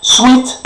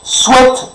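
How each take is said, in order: First: "Sweet" said with a long ee, like the candy; "Sweet" with a long i sound; pronounced sweet. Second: "Sweat" said with a short e, like swet; "Sweat" rhymes with wet; pronounced sweat. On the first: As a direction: say "Sweet" as in bonbon, long ee vowel. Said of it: "On dit pas sweatshirt". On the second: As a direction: say "Sweat" as in transpirer, short e vowel. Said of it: "c'est transpirer". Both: Shown as a demonstration.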